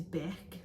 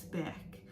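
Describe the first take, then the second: First: Said in the usual way. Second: Beck repeated in a whisper, much softer. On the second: Shown as a demonstration. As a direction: breathe the name Beck once more, hushed. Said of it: "another one syllable name I've written down is Beck".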